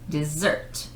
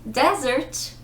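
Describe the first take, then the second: First: The stress is on the last syllable. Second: The stress is on the first syllable. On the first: Something sweet eaten after a meal. "emphasis on the last syllable" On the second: A dry, sandy place. "emphasis on the first syllable"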